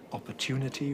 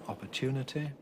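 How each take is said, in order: First: The final vowel is a tense 'ee' sound. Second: The final vowel is a lax short 'i' sound. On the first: "use an E" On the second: "rather than an I"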